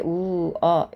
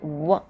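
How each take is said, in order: First: The two vowels are said as separate syllables. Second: The two vowels are shortened into one glide. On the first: The speaker calls it wrong. "이렇게 우어 이렇게 발음해 주시기보다는" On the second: The speaker calls it right. "우어 발음으로 줄여서 발음을 해주시면 되겠어요"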